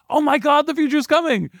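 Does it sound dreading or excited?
excited. It is said with hopeful excitement.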